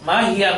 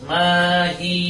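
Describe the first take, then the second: First: The word ends with a 'ya' syllable. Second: The word ends with a long 'i' sound. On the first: The speaker calls it wrong. "মাহিয়া না বলে" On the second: The speaker calls it right. "বলতে হবে মাহি"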